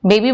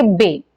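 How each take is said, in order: First: Said in the usual way. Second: बे for बेबी, second syllable dropped; बेबी cut down to बे; one syllable only. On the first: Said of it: "बेबी ना बोल करके". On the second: Shown as a demonstration. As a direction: say just बे, leaving off the final बी. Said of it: "केवल एक syllable".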